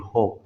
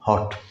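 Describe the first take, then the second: First: American style, the final T is dropped. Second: The final T sound is clearly pronounced.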